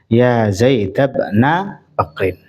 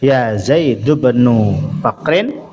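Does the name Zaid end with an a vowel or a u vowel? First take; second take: a vowel; u vowel. First: Zaid ends with an a vowel. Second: Zaid ends with a u vowel. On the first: "atau dibaca fathah" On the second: "boleh dibaca dhammah"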